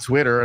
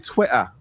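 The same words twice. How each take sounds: First: It is said in an American accent. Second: It is said in a British accent. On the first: The speaker calls it wrong. "it sounds better than Twitter. It's like Twitter's like so so boring" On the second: The speaker calls it right. "I like when they say Twitter"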